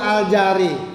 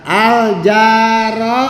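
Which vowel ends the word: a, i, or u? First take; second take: i; a. First: The word ends with an i vowel. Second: The word ends with an a vowel. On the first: "tidak al jari" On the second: "Tidak al jaro"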